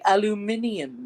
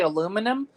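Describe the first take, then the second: First: It is said the British way, aluminium. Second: It is said the American way, aluminum.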